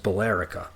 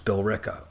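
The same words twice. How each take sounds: First: It is said the way the spelling suggests. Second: It is said the way local people say it. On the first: The speaker is reading the name off the page. The speaker calls it wrong. "a lot of people see it and think it's Billerica. It's not" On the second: The speaker knows the town. The speaker calls it right. "It's Billerica"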